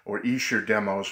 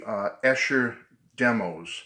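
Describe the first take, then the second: First: Escher said EE-sher, long e; EE-sher pronunciation. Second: Escher said ESH-er, short e; ESH-er pronunciation. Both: Shown as a demonstration. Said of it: "however you pronounce it".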